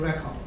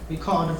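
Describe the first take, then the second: First: It is pronounced as the noun form. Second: It is pronounced as the verb form. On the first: The word is a thing. "if it's a noun, then we pronounce video record" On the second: The word is an action. "if it's a verb, then we pronounce record"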